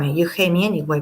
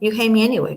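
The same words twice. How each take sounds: First: It is said in a plain, neutral tone. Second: It is said in a tough, defiant tone.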